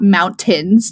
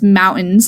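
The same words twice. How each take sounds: First: The T sound in the middle is pronounced. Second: The T sound in the middle is dropped. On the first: "not mountains" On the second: "No one puts the T in the word mountains"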